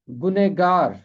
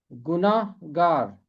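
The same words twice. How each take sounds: First: गुनहगार with short middle 'gune-gaar'; short form. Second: गुनाहगार with long 'naah', drawn out slowly; full form. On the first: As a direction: say गुनहगार contracted, no long 'naah'. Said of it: "और ये मुख्तसर शक्ल है". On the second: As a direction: say गुनाहगार in full, 'gu-naah-gaar'. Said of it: "पूरी शक्ल है गुनाहगार". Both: Shown as a demonstration.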